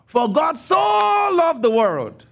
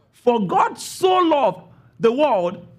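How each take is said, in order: First: Slow, high, loud and emphatic, stretching "loved"; intense quoting. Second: Slow, measured, "so" read as in this way, not as intensity; explanatory reading. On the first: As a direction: proclaim it with full intensity, leaning hard on "loved". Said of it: "We say it like this". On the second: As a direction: calmly explain the meaning, stressing "God" over "loved". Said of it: "what he was trying to say is". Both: Shown as a demonstration.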